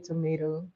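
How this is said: It is said in an American accent. "tomato is American"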